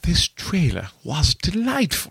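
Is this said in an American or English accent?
English. It is said in a put-on English accent.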